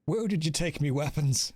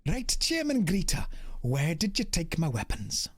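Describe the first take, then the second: First: Put-on not very good Irish accent; amateur Irish character voice. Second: Sing-song Welsh, every other syllable emphasized; Welsh accent. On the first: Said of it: "We're gonna go with Irish for this one". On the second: Acted. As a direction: put on an exaggerated, lilting Welsh accent. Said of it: "Welsh accents is you just emphasize every other syllable".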